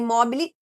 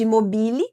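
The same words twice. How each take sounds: First: It is pronounced with a Brazilian Portuguese sound. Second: It is pronounced with a French sound.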